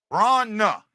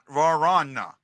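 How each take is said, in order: First: Varna said as VRAH-nuh, two beats; two-syllable Vrana. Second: Varana said as var-AH-nuh, three beats; three-syllable Varana. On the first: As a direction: demonstrate Varna as VRAH-nuh, V and R run together. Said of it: "Just like I've been saying it". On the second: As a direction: add a vowel between V and R in Varana. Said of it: "Not Varana". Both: Shown as a demonstration.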